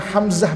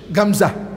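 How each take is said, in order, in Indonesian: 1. Nama itu dimulai dengan bunyi H. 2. Nama itu dimulai dengan bunyi G.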